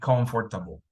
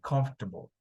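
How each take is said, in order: First: Every syllable of the word is pronounced separately. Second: The word is shortened, starting with a clipped comf. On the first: The speaker calls it wrong. "it's easier when you say comfortable... we don't say that in English" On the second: The speaker calls it right. "We say comfortable"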